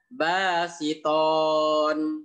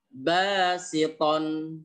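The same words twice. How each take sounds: First: The final vowel is drawn out long. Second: The final vowel is kept short. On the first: The speaker calls it wrong. "tidak boleh dibaca basiton. Tidak boleh, itu salah" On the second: The speaker calls it right. "Cara membacanya basiton"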